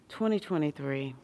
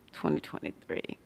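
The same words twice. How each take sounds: First: Said in the usual way. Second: Breathy whispered aside; hushed knowing whisper. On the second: Real, not acted. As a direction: whisper it like a shared secret. Knowing repeat of the year.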